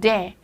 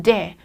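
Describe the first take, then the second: The two takes are said the same way.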